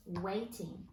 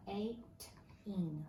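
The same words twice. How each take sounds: First: Said in the usual way. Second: "Waiting" stretched out slowly and quietly, sound by sound; sounding out the word. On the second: Shown as a demonstration. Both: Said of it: "Read that one for me".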